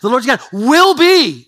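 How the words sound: The word 'will' is stressed. The focus is on certainty: it will happen, not might. "not might be, will be"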